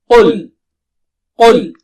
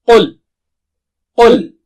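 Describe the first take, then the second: Both takes have the same delivery.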